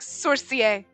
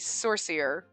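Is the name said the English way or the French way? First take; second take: French; English. First: The name is said with French pronunciation. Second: The name is said with English pronunciation. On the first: "if we were doing Frenchy, I'd be like" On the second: "But otherwise it'd be"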